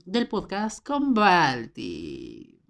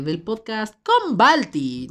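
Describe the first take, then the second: First: Slow, drawn out. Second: Louder, higher, drawn out show name; excited. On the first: Host trying the show name, slow and odd. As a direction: stretch the show name out slowly, oddly. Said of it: "eso sonó muy raro". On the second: Host retrying the show name, excited and slow. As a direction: announce it with big excitement. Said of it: "sonó muy emocionado". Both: Shown as a demonstration.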